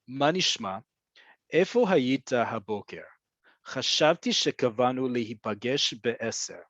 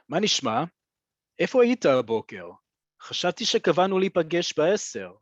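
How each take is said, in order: First: It is said slowly and deliberately. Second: It is said forcefully at normal speed.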